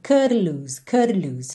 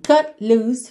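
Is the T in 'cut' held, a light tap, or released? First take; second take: light tap; held. First: The T is a quick light tongue tap. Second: The T is held silently without release. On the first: "chegou a fazer assim uma vibraçãozinha da língua no céu da boca" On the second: "não ficou aquela consoante oclusiva assim"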